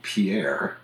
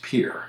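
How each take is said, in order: First: French Pierre, two syllables, stress on the end; French pronunciation. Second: Pierre as one syllable, like "peer"; South Dakota Pierre, said "peer"; local pronunciation. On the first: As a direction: say Pierre the French way, pee-AIR. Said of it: "that's spelled Pierre, but pronounced Pierre". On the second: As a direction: flatten Pierre into American PEER. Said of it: "but pronounced Pierre". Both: Shown as a demonstration.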